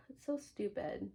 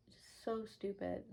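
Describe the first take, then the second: First: Said in the usual way. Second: Softer and slower, trailing off in disgust; slower, quieter echo of the line before; quieter, slower repeat. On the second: Real, not acted. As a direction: let it fade under your breath. Repeats her dismissal, fading.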